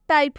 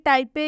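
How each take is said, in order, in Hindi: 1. शब्द का अंत p पर होता है, कोई स्वर नहीं। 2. शब्द के अंत में एक अतिरिक्त ay ध्वनि जुड़ती है। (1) "इसका सही उच्चारण टाइप होगा" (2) "ना कि टाइपे या टाइपी"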